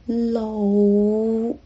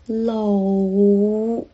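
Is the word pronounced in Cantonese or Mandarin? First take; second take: Cantonese; Cantonese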